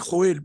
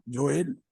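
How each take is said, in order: First: It begins with a harsh throaty J sound. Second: It begins with a soft Y sound. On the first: The speaker calls it wrong. "se puede pronunciar Joel" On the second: The speaker calls it right. "mucho mejor y más propio es la J como Y"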